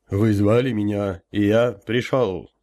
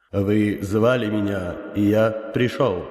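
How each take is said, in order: First: Slow, resonant rumble of a summoned elder; booming elder voice. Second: Slow, powerful unearthly boom; inhuman voice. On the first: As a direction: boom it out slowly like a spirit. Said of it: "прогудел я". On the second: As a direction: speak like a vast otherworldly being. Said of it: "мощным, нечеловеческим голосом произнёс". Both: Acted.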